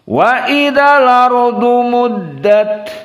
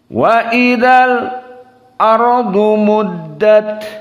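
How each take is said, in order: First: The glottal stop is dropped, its vowel joined to 'l'. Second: A brief stop after 'l' comes before the glottal stop. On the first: "Kemudian qiraah Wars" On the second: "Kemudian qiraah Hamzah"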